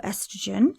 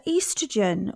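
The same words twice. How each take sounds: First: Estrogen said ESS-truh-jen; "estrogen" with first syllable as in best; short-E pronunciation. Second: Estrogen said EE-struh-jen; British-style "estrogen", first syllable EE; long-E pronunciation. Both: Shown as a demonstration. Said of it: "depending on your pronunciation".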